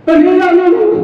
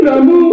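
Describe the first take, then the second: First: Higher call, stretching the name Ramu. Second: Said in the usual way. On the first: Acted. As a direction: call him from another room. Calling the absent servant. (उंच आवाजात लांब हाक)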